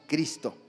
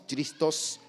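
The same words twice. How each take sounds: First: Said in the usual way. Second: "Christos" with the Greek ending -os; Greek pronunciation. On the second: Shown as a demonstration. Preacher contrasting Greek "Christos" with Spanish "Cristo". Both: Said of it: "No decimos Christos, decimos Cristo".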